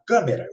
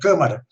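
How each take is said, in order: First: The second vowel sounds like 'e'. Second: The second vowel sounds like 'a'. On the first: This is the form used in Brazil. The speaker calls it wrong. "o que se chama câmera no Brasil" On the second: This is the proper standard form. The speaker calls it right. "o correto é câmara"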